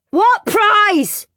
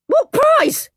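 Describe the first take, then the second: First: High insistent shout. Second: High sudden shriek. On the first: Henry shouting at teacher, high demanding shout. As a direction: call across the classroom. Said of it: "and shouted". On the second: Boy in class shrieking about the prize. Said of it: "he shrieked". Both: Acted.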